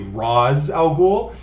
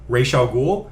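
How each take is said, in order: First: The name begins with a separate syllable, Rahs. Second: The name begins like the word racial. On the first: This version is closer to the original Arabic. The speaker calls it right. "closer to the actual Arabic" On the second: This version was made up by people who did not speak Arabic. The speaker calls it wrong. "complete bullshit"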